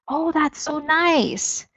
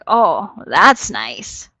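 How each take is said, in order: First: It is said warmly and sincerely. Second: It is said with a sarcastic tone. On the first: The listener truly likes the story. "So I could say it like" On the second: The listener does not really care about the story. "that second one, it's going to show sarcasm"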